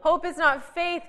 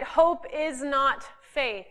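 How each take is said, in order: First: "Hope" lifted higher with a laugh; stress on hope, laughing. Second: Slow, emphatic statement. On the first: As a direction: say "Hope" higher, then "is not faith" with a laugh. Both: Shown as a demonstration. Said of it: "Everyone got that?".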